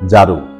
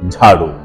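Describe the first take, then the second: First: The first consonant has no puff of air. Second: The first consonant has a strong puff of air. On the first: The speaker calls it wrong. "আমরা বলবো না ঝাড়ু" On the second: The speaker calls it right. "আমরা বলবো ঝাড়ু"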